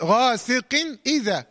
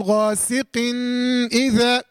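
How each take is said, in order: First: غاسق اذا with a short clear n straight into the next vowel; slow, connected ghasiqin idha in غاسق اذا; joined without ghunna. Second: غاسق اذا with the final n of ghasiqin hummed long; overdone nasal hum linking غاسق to اذا; wrongly prolonged ghunna. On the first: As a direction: link غاسق to اذا, no pause and no nasal hum. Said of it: "بدون فصل". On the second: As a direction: hold a nasal n at the end of غاسق before اذا. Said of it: "اظهار الغنة هذا خطأ". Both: Shown as a demonstration.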